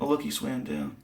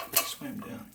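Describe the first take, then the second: First: Said in the usual way. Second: Hushed unvoiced echo; a quiet whispered repeat to himself. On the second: Real, not acted. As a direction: breathe it out under your breath. Echoes his own words.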